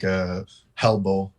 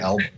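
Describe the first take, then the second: First: The word begins with an added h sound. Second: The word begins with a plain vowel sound. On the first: The speaker calls it wrong. "sometimes I'll put H's when there's not" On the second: The speaker calls it right. "when I want to say elbow"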